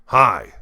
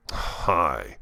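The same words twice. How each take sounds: First: Hi. said louder and bright; a perky Hi; lively hi. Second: Said in the usual way. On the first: Shown as a demonstration. Teacher demoing a louder, brighter Hi. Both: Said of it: "Do you hear the difference?".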